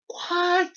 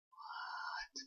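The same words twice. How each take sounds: First: Very high mock-astonished squeak; high-pitched disbelief. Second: Long, very soft mock-stunned whisper. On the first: Retelling going back into the TARDIS, high-pitched disbelief. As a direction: pitch it way up in acted amazement. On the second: Retelling the TARDIS staying put, stunned whisper. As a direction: breathe it out in acted disbelief.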